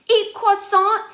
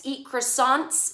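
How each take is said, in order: First: "Eat croissant" high and loud, with "croissant" said like "kwasa"; mock French croissant. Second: "croissants" said the American way, "kruh-SAHNTS", slow; plain croissants. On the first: Vlogger mocking Miranda's line, high snooty "croissant". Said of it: "calling it croissant". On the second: Shown as a demonstration. Vlogger showing how she'd say the word, plain English "croissants". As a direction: say "croissants" the normal English way, slowly. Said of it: "say it improperly 'cause it sounds normal".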